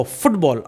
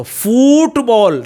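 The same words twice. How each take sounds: First: फुटबॉल with a quick, short "fut"; short, low-key "fut" in फुटबॉल; short-vowel फुटबॉल. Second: फुटबॉल slow and high with a long "fooot"; exaggerated long "oo" in फुटबॉल; wrong long फुटबॉल. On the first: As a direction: keep the first vowel of फुटबॉल brief. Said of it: "ये shorter sound हो जाता है". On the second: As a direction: overstretch the first vowel of फुटबॉल. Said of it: "फुटबॉल नहीं". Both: Shown as a demonstration.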